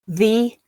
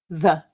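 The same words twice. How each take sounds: First: The vowel is full and unreduced. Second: The vowel is reduced to a schwa. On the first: "the full form" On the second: "the weak form"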